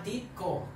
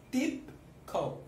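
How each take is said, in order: First: Said in the usual way. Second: Tipco with a popped P and a gap; stressed P. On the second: Shown as a demonstration. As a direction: say Tipco as Tip, pause, co. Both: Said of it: "Solo que tiene una P".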